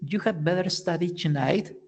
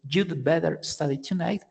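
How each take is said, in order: First: The word had is said in full. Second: Had is shortened to a d sound. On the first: "instead of saying" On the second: "you could say"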